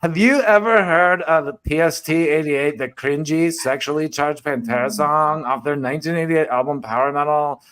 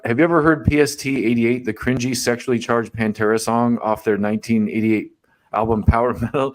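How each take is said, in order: First: It is read in a mocking put-on voice. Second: It is read in his plain voice.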